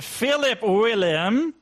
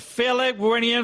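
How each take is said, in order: First: The name is said slowly and deliberately. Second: The name is said at a normal, quick pace.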